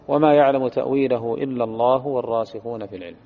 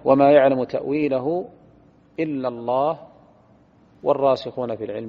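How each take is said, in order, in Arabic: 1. الكلام يمضي دون وقف بعد الله. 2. يوجد وقف بعد كلمة الله. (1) "فنقرأ بالوصل" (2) "وقف، ثم واو استئناف"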